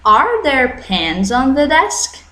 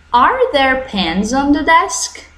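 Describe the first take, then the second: First: Slow, with "desk" rising at the end; rising intonation on "desk"; rising question tune. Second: Slow, with "desk" rising at the end; slow question tune rising to the end. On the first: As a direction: repeat the question tune with a clear rise. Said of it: "Viu como muda a minha entonação?". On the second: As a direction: model the question intonation for students to repeat. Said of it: "You see my intonation?". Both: Shown as a demonstration.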